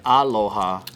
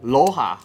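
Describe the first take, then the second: First: The first vowel is clearly pronounced in the word. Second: The first vowel is dropped from the word. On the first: "It doesn't sound like aloha" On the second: "they'll be like loha"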